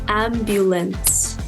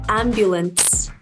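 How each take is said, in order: The two takes are said the same way.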